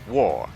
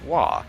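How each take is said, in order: First: The word sounds like the word war. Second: The word ends on an open vowel sound. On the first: The speaker calls it right. "It is war, as in we's going to war" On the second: The speaker calls it wrong. "the G H is silent and pronounce it "wah.""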